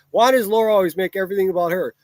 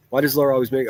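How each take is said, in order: First: Higher and louder, sneering at the comment; mocking reread. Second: Said in the usual way. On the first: Shown as a demonstration. Streamer mocking a viewer's comment by rereading it, sneering. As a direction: throw the comment back at them, scornfully. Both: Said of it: "listen how fucking stupid your comment is".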